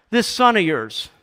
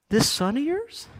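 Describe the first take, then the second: First: Raised, loud, falling accusation; accusing jab. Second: High rise on YOURS, no extra volume; questioning echo. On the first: Elder brother disowning his brother to dad, accusing. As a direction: fling it at him as a final reproach. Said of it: "he lets him have it". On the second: Challenging the elder brother's distancing words, YOURS rising in disbelief. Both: Acted.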